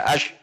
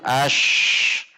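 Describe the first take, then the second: First: The final sh sound is held back abruptly. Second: The final sh sound flows on continuously. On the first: The speaker calls it wrong. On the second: The speaker calls it right. "namun ash"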